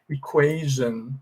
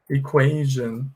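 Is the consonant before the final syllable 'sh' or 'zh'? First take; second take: zh; zh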